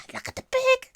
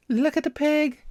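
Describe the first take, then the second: First: Breathless high whisper of delight; very high excited whisper. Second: Louder, higher thrilled exclamation; excited cry, higher and louder. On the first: Finds the pig sticker. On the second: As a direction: say it out loud, thrilled. Repeats it aloud. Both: Real, not acted.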